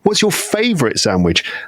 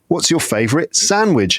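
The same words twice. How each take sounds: First: The stress falls on the word favourite. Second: The stress falls on the word sandwich. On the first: The favourite one, as opposed to the least favourite. "We've heard about your least favourite" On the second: A sandwich, as opposed to a drink. "we've heard about your favourite drink"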